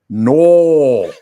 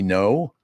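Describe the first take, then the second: First: The word is said far back in the throat. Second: The word is said in a standard way. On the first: The speaker calls it wrong. "how you can mispronounce N O" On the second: The speaker calls it right. "It's supposed to be no?"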